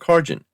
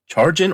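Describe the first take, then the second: First: The word begins with a 'k' sound. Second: The word begins with a 'ch' sound. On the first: "given that it's short for character generation, shouldn't it be Cargin?" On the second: "pronounced charge in, like charging"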